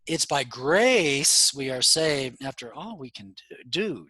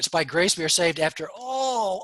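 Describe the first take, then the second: First: The stress falls on grace, not on do. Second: The stress falls heavily on all and do. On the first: Salvation depends mainly on grace. The speaker calls it right. "No, the tone is better" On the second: Salvation depends mainly on our own doing. The speaker calls it wrong. "Do, do, do"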